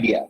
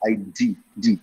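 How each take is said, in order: First: The stress is on the first syllable. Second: The stress is on the second syllable. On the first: The speaker calls it wrong. "never say" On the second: The speaker calls it right. "அந்த second சிலபிள்ல ஒரு stress கொடுக்கணும்"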